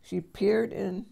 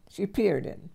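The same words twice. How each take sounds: The two takes are said the same way.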